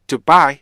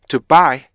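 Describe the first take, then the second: No difference in how they are said.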